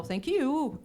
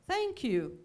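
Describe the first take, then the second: First: "Thank you" with YOU pushed up and loud; intonation at the end. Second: Said in the usual way. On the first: Shown as a demonstration. Teacher imitating Brazilian learners, final stress on "you" in "Thank you". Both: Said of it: "a entonação lá no final".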